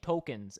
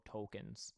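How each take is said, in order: First: Said in the usual way. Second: Tokens with a dropped rounded Canadian O; Canadian accent. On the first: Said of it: "say it in a Canadian accent". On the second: Shown as a demonstration. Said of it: "say it in a Canadian accent. Really drop that O".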